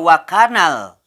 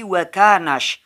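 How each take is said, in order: First: A clear 'l' sound is heard at the end. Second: The 'l' disappears, merging straight into 'sh'. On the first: The speaker calls it wrong. "Tidak wakanal ya" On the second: The speaker calls it right. "Tapi wa kanash"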